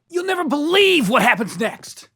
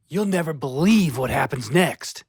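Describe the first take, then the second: First: Loud, high, overexcited teaser; hyped clickbait shout. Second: Said in the usual way. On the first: Acted. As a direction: sell it like a viral video hook. Same teaser, loud high take.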